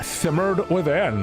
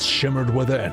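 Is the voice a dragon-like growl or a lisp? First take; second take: lisp; dragon-like growl. First: It is said with a lisp. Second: It is said in a growly dragon voice. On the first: "how do you say shimmered with a lisp?" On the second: "we'll give him a dragon voice"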